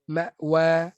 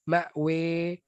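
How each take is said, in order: First: The final vowel is an open a. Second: The final vowel is a clear e. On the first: "baris atas" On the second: "baris imalah"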